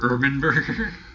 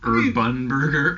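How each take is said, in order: First: The second syllable is reduced, like 'urban'. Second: The second syllable is a full 'bun' sound. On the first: "if you're supposed to pronounce it Urban Burger, I'm like, why don't you just spell it with an A?" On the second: "They spell it Urbun Burger. B-U-N"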